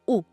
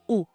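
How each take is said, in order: First: The vowel is a pure 'oo' sound. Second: The same.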